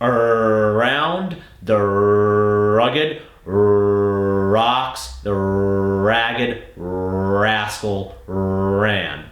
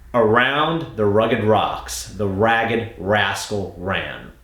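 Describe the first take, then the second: First: The R sounds are stretched out long. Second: The R sounds are short and normal.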